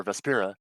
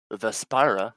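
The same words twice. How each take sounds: First: "Vespira" said ves-PEER-a; Vespira with short I. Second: "Vespira" said ves-PIE-ra; Vespira with long I. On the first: Game master offers another reading, "Vespira" pronounced ves-PEER-a. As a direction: say the middle of "Vespira" like "spear". Second pronunciation offered after "or. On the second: Game master names the place, "Vespira" pronounced ves-PIE-ra. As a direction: say the middle of "Vespira" like "spire". Offers two pronunciations of name. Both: Real, not acted.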